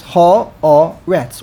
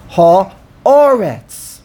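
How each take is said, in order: First: Haaretz in three even beats, ha, a, retz; syllable by syllable. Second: Haaretz with a loud, long A after the ha; stress on the aleph. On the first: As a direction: separate each syllable of Haaretz evenly. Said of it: "Three syllables". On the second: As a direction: punch the middle A of ha-A-retz. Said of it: "On the aleph". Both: Shown as a demonstration.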